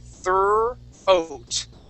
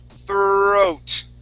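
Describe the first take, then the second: First: The word is split into two separated parts. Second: The word is said as one joined unit. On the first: "So we're going to say thir, oat" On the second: "now let's combine them"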